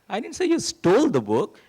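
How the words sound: The stress is on "stole".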